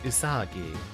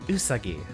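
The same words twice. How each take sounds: First: The stress is on the second syllable. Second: The stress is on the first syllable. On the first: "rather than the second" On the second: "Stress on the first letter"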